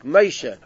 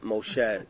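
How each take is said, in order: First: The name has a non-Sephardic pronunciation. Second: The name has a Sephardic pronunciation. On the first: The speaker calls it right. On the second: The speaker calls it wrong.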